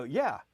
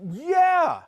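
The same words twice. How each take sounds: First: Said in the usual way. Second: Loud, high shouted "yeah"; drawn-out, pitched-up yell of agreement; emphatic agreement. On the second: Retold or imitated. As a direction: cry it out in total recognition. Customer's agreement peaks, retold.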